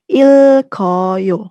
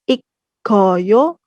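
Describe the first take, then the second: First: The middle has an l before k. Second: The middle has a doubled k sound. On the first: The speaker calls it right. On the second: The speaker calls it wrong. "bukan ikkoyo"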